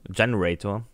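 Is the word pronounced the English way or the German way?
English. The word is pronounced the English way. The speaker calls it right. "Generator im Englischen"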